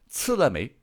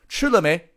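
First: The first consonant is a flat c sound. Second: The first consonant is a retroflex ch sound. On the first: This is how it was said in the Ming era. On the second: This is how it is said today.

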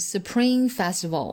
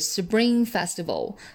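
First: The sound after s is a strong, puffed p. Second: The sound after s is softened toward b. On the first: The speaker calls it wrong. "千万不能读成Spring Festival" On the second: The speaker calls it right. "我们一定要浊化"

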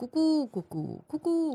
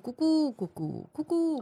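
First: The coos are grouped in four-note phrases. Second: The same.

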